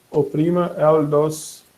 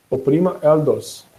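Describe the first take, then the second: First: Said in the usual way. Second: Slow, with "dos" drawn out and weighted; stress on dos. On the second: Shown as a demonstration. Showing the class how Alexa stresses "dos", slow emphatic read. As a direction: lean hard on the final word "dos". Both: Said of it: "E vai dar uma ênfase no dos".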